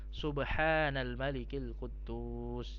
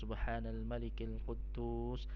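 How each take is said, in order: First: It is said with a noticeably raised voice. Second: It is said at an ordinary volume.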